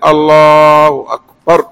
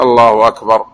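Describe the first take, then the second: First: الله أكبر dragged slowly as the mistaken way; mock the drawn-out الله أكبر; wrong stretched takbir. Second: Said in the usual way. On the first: Shown as a demonstration. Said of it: "ولا ينفض كذا يقول". (تكبير ممطوط خطأ) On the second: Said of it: "يترك على هيئتها".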